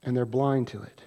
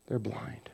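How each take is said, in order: First: Said in the usual way. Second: "They're blind" as a bare whisper. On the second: Shown as a demonstration.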